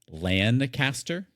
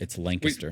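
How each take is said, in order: First: It is pronounced just as it is spelled. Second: It is pronounced the way local people say it. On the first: The speaker is not from the town. The speaker calls it wrong. "if you say it as it's spelled" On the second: The speaker is from the town. The speaker calls it right. "That's not how the locals call it. It's Lancaster"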